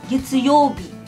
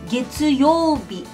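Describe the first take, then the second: No difference in how they are said.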